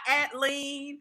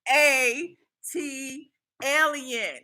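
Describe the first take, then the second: First: Said as one word ending in lean. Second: Letters A and T, then the word alien. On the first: The speaker calls it wrong. "not at lean" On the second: The speaker calls it right. "how to pronounce it"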